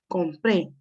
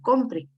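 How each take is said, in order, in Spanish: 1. El acento está en la última sílaba. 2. El acento está en la primera sílaba. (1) "acá dice compré, es que yo ya lo hice" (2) "no llevara la tilde, diría compre"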